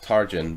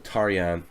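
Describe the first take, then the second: First: The name is said the anglicized way. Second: The name is said the Hungarian way. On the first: This is how the man says his own name. "he calls himself Tarjan" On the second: This is the name's original Hungarian form. "if we pronounce it properly in Hungarian"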